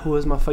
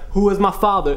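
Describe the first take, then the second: First: It is said with low, unassertive, hesitant tone. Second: It is said with raised, assertive, informative tone. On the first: The speaker is not informing the listeners. The speaker calls it wrong. "You're not" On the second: The speaker is telling the listeners something. The speaker calls it right. "you gotta bring the tone up a little bit, like you're giving information"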